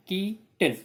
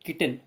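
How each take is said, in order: First: Keaton broken slowly as की, टन; split into two syllables. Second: Said in the usual way. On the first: Shown as a demonstration. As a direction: say Keaton in two beats, stretching की. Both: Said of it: "इसको दो बार बोलना पड़ता है".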